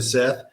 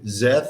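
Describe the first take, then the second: First: The name begins with a hissing s sound. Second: The name begins with a buzzing z sound. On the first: This is his usual name. "instead of Seth" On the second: This is what the aliens call him. "when anybody calls me by that name, Zeth instead of Seth"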